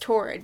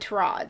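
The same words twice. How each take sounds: First: The first syllable sounds like the word Taurus. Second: The first syllable does not sound like Taurus. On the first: This is how the speaker assumed it was pronounced. The speaker calls it wrong. "I thought it was Torrad, because I'm like, oh, Taurus" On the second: This is how someone in a video pronounced it. The speaker calls it right. "someone said Torrad"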